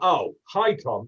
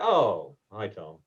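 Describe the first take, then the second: First: The greeting sounds cold and resentful. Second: The greeting sounds low and glum.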